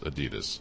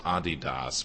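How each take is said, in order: First: The name is said in the usual American way. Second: The name is said in its original German way. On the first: This is how people in the country usually say it. "in this country we say, even the company in this country says Adidas" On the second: This is how the name is technically pronounced. "technically it is Adidas"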